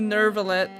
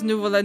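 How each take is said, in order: First: The first syllable sounds like 'ner'. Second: The first syllable sounds like 'new'. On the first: The speaker calls it wrong. "no Nervillette" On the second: The speaker calls it right. "She actually said it right"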